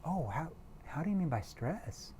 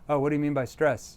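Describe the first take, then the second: First: It is said in a confused, concerned tone. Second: It is said in a plain, neutral tone.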